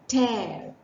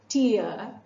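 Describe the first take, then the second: First: The word rhymes with care. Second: The word rhymes with fear. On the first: A rip left after something is torn apart. "rhyming with care" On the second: Water that comes from the eyes. "rhyming with fear"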